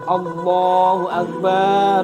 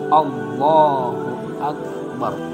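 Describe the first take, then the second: First: The vowel after the b is drawn out long. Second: The vowel after the b is kept short. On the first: The speaker calls it wrong. "panjangnya baknya lafaz akbar, Allahu Akbar, nggak boleh begitu" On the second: The speaker calls it right. "nggak boleh dibaca pan panjang, harus Allahu Akbar"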